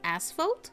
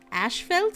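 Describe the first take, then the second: First: The first syllable sounds like 'ass'. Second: The first syllable sounds like 'ash'.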